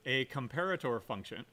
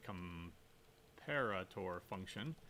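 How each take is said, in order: First: Said in the usual way. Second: Drawn out slowly and much softer; slow, quiet repeat. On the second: Shown as a demonstration. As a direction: say "comparator function" slowly, quietly, for emphasis.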